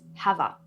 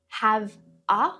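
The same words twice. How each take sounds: First: The two words run together as one. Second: The two words are said separately. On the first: The speaker calls it right. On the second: The speaker calls it wrong.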